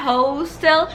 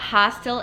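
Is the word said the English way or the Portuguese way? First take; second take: Portuguese; English. First: It is said with a Brazilian Portuguese pronunciation. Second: It is said with an English pronunciation. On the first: The speaker calls it wrong. "hostel não é hostel" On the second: The speaker calls it right. "A gente fala hostel in English"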